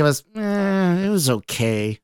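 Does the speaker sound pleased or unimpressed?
unimpressed. It is said flatly, sounding unimpressed. The speaker did not like it. "If you didn't like it"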